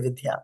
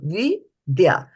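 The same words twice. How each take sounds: First: The syllables are run together into one. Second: The syllables are said separately, one by one. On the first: The speaker calls it wrong. "we'll say Vidya, but this is not Vidya" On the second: The speaker calls it right. "pronounce it separately because in this line we are pronouncing things separately"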